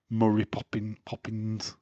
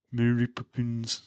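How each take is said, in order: First: "Murray Poppin-" with Murray rhyming with hurry; mispronounced. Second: Said in the usual way. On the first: Shown as a demonstration. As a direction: say "Murray Poppin-" as the wrong version. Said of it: "You said, I would say, I've said". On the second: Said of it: "I would say".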